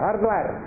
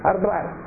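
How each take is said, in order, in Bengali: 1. শব্দটি দুই দলে উচ্চারিত হয়। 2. শব্দটি দুই দলে উচ্চারিত হয়।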